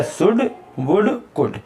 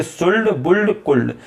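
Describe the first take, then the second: First: सुड वुड कुड slow and higher, no L; slow correct reading. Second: सुल्ड बुल्ड कुल्ड with the L sounded; wrong reading. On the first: Teacher gives students the right form, slow सुड वुड कुड. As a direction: spell out the right form slowly. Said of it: "ये सही क्या है". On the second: Teacher warns students against सुल्ड, L sounded. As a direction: demonstrate the mistake, L pronounced. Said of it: "ऐसे नहीं पढ़ लेंगे". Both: Shown as a demonstration.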